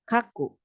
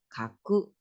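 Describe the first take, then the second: First: The pitch goes from high to low. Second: The pitch goes from low to high. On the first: It means to write. "dari atas ke bawah" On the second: It is a different word. "dari bawah ke atas"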